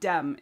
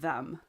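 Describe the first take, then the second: First: The word begins with a d sound. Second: The word begins with a th sound. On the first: A Dutch speaker is saying it. "it comes out as a d sound" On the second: An English speaker is saying it. "the th sound that English speakers use"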